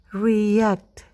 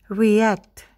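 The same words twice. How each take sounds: First: The word is said slowly. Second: The word is said fast. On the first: "kita lakukan perlahan terlebih dahulu" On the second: "Sekarang kita lakukan lebih cepat"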